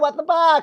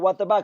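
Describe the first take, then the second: First: It is said in a flamboyant, exaggerated voice. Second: It is said in a plain, ordinary voice. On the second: "They're not just like"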